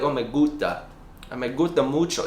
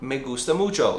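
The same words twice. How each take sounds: First: "gusta" with the s swallowed, goo-tah; american accent spanish. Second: "gusta" with a clear s, goos-tah; american accent spanish. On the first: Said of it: "swallow certain letters". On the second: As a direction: say "gusta" with the s fully voiced. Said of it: "rather than be like". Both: Shown as a demonstration.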